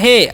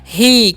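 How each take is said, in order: First: The word ends in a short 'ay' vowel. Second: The word ends in a long 'ee' vowel. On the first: The speaker calls it wrong. "एच का उच्चारण ह कर देना है और ई का उच्चारण एकले कर देना है। ... ऐसे बिल्कुल नहीं करना है जी।" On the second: The speaker calls it right. "उसका जो उच्चारण है दीर्घी हो जाएगा।"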